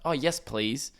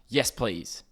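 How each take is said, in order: First: It sounds polite and friendly. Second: It sounds curt and annoyed.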